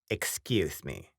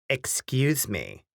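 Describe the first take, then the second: First: It is said softly and quietly. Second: It is said more loudly.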